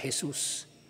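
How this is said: It is said with a Spanish accent. "Sa Kastila"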